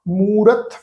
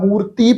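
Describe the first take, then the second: First: The word ends on the consonant, no vowel. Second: The word ends with an added i vowel. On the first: The speaker calls it right. "Silent ਰਹਿ ਗਈ" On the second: The speaker calls it wrong. "ਨਾ ਮੂਰਤੀ ਪੜਿਆ"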